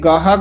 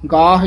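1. ਸ਼ਬਦ ਦੇ ਅੰਤ ਵਿੱਚ ਜੋੜਿਆ ਹੋਇਆ ਲੰਮਾ a ਸਵਰ ਹੈ। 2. ਸ਼ਬਦ ਦਾ ਅੰਤ h ਵਿਅੰਜਨ ਨਾਲ ਹੁੰਦਾ ਹੈ। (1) "ਕਈ ਗਾਹਾ ਕਹਿ ਜਾਂਦੇ ਹਨ" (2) "ਗਾਹ ਇਸ ਤਰ੍ਹਾਂ ਹੀ ਬੋਲਿਆ ਜਾਏਗਾ"

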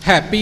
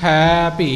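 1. ਦੋਵੇਂ ਸ਼ਬਦ ਇਕੱਠੇ ਬੋਲੇ ਗਏ ਹਨ। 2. ਦੋਵੇਂ ਸ਼ਬਦ ਸਾਫ਼ ਵੱਖ-ਵੱਖ ਬੋਲੇ ਗਏ ਹਨ। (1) "ਇਕੱਠਾ ਨਹੀਂ ਬੋਲਣਾ" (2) "ਹੈ ਵੱਖਰਾ ਅਤੇ ਭੀ ਵੱਖਰਾ"

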